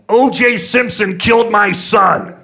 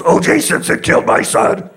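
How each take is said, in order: First: Furious scream, much higher and louder; angry scream. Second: Hoarse hammed-up yell, higher and louder; mock yell. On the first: Retold or imitated. Grieving father screaming at the hotel clerk, enraged. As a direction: scream it at him in rage, slowly. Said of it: "gets mad and screams at him". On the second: Weary father yelling at strangers who ask, mock fury. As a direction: bark it out as a go-to reply. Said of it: "he just yells".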